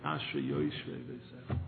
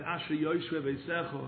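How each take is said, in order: First: Lingering prayer. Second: Said in the usual way. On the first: Retold or imitated. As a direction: savour each word like a long prayer. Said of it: "For a half hour, he said". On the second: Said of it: "he said".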